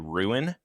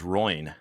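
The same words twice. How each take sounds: First: The word is said in two syllables, 'roo-in'. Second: The word is said as one syllable, 'roin'. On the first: "he can't say ruin" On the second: "he says ruin"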